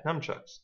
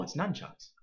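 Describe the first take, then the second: First: "nunchucks" said as num-chucks; "nunchucks" with an m sound, numchucks. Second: "nunchucks" with a clear n, nun-chucks; corrected pronunciation. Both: Shown as a demonstration. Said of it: "I've always called them numchucks".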